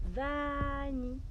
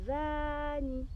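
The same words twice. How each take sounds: First: Slow coaxing call to a pet; coaxing the rabbit. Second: Gently coaxing a rabbit by name. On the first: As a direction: drawl "Vanille." to the rabbit. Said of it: "vous dites". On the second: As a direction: draw out "«Vanille»" slowly, coaxing. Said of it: "vous lui dites". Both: Shown as a demonstration.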